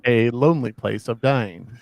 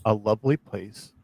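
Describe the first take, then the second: First: "lonely" read slowly with a long oh and n; slow, careful "lonely" in the title; corrected title. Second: "lovely" said in place of lonely; misread word. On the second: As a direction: read "lovely" with a short uh vowel and v. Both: Real, not acted. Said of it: "sometimes I'm dyslexic".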